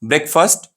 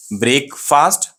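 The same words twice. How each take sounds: First: "ब्रेकफास्ट" as quick BREK-fust; short vowels run together in "ब्रेकफास्ट"; said quickly, right. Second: "ब्रेकफास्ट" slow, BRAYK-FAAST; two long vowels, two full words in "ब्रेकफास्ट"; said slowly, wrong. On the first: Teacher reviews the right way, quick "ब्रेकफास्ट". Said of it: "वही तेजी से बोले". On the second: Teacher reviews the wrong way, slow split "ब्रेकफास्ट". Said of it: "अगर आराम से बोले". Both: Shown as a demonstration.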